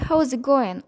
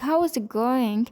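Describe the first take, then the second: First: Some sounds are dropped and the phrase is faster. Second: Every sound in the phrase is pronounced fully. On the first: The speaker calls it right. "speak more fastly by not sounding some sounds" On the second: The speaker calls it wrong. "instead of saying"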